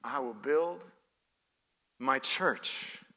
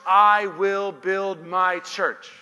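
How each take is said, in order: First: Soft, low and halting; lowered voice, weighty and spare; hushed repetition. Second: Loud, slow proclamation; emphatic declaration. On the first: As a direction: let it sink in quietly, pausing mid-phrase. Same verse repeated softly after pause. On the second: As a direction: build to a forceful, drawn-out climax. Climax of a list, verse proclaimed. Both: Real, not acted.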